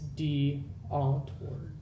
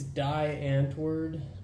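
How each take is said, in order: First: The first word sounds like 'dee'. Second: The first word sounds like 'die'. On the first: This is the speaker's preferred way to say the name. The speaker calls it right. "So it's D Antwoord" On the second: This is how most people say the name. The speaker calls it wrong. "People think it's Die Antwoord because it's spelled D I E"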